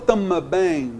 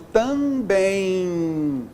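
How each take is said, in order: First: The M is voiced with an extra vowel after. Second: The first syllable is a plain nasal vowel. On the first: The speaker calls it wrong. "Eu falo tama bem? Não" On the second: The speaker calls it right. "só nasalizei a vogal anterior"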